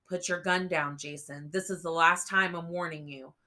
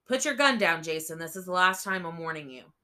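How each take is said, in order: First: Louder, a stern warning; firm command. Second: Barked command. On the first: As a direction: order him to drop it. Officer warning armed boy. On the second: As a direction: shout the final warning at him. Officer warning, chapter repeat. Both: A narrator's reading.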